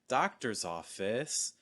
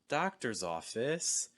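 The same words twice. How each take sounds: First: The pitch falls and then rises at the end. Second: The same.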